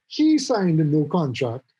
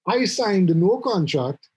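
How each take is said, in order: First: HE punched at the start; first word He stressed. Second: I punched at the start; first word I stressed. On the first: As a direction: lean on the word He. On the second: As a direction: lean on the word I. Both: Shown as a demonstration.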